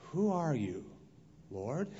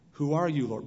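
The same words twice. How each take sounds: First: It is said with a doubting, skeptical tone. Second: It is read in a plain, neutral tone.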